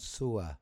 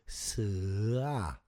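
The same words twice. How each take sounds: First: The vowel sounds like 'oo-ah'. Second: The vowel sounds like 'er' in 'sir'. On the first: The speaker calls it wrong. "the pronunciation is not Sua" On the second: The speaker calls it right. "it is Sua ... a bit like S I R for sir ... But there's no R"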